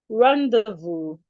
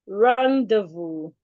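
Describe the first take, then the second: Both takes have the same delivery.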